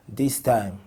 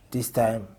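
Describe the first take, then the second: No difference in how they are said.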